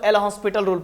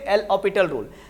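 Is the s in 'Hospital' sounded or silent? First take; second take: sounded; silent. First: The name is said with an s sound. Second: The name is said without an s sound. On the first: The speaker calls it wrong. "लेकिन ये उच्चारण pronunciation गलत है।" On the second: The speaker calls it right. "इसको क्या पढ़ते हैं?"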